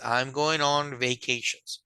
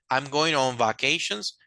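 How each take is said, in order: First: The first vowel is an 'ay' sound. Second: The first vowel is a short 'a' sound. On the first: The speaker calls it right. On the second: The speaker calls it wrong. "no es"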